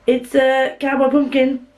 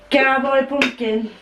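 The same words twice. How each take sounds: First: Said in the usual way. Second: Cowboy pumpkin said slowly in a mild Yorkshire accent; a hint of Yorkshire, drawn out; light Yorkshire accent. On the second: Shown as a demonstration. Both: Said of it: "I didn't really Yorkshire then".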